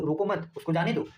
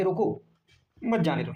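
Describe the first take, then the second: First: रोको मत as one phrase, then उसको जाने दो; रोको मत grouped together. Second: रोको, a clear comma pause, then मत जाने दो; pause after रोको. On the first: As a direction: keep मत attached to रोको. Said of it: "इसका मतलब हो गया". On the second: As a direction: split रोको off from मत. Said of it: "यहाँ पे कॉमा लगा दिया". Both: Shown as a demonstration.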